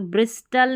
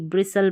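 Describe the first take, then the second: First: ब्रिस्टल with the T sounded; wrong pronunciation. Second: ब्रिसल with a silent T; correct pronunciation. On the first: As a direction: say ब्रिस्टल with a clear T after S. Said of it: "तो ब्रिस्टल नहीं". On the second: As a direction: say ब्रिसल, no T after S. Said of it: "ब्रिसल पढ़ना है". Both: Shown as a demonstration.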